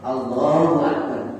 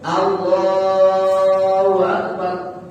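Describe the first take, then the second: First: The phrase is said short and quick. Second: The phrase is drawn out long.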